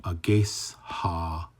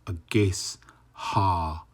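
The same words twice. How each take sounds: First: The S and H are said as separate sounds. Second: The S and H are said as separate sounds.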